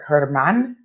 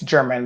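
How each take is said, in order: First: The name begins with a breathy H sound. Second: The name begins with a J sound. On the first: This is the Spanish way of saying the name. "I think the Spanish people would pronounce it" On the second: This is how English speakers read the name. "We would look at it and say it's"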